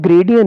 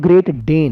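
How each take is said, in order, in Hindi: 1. यह एक ही शब्द की तरह जुड़ जाता है, Gradian। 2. यह दो साफ़ शब्द हैं, Great Dane। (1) "ਉਹ ਗ੍ਰੇਡੀਅਨ ਨਹੀਂ" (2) "ਉਹ ਗ੍ਰੇਟ ਡੇਨ ਹੈ"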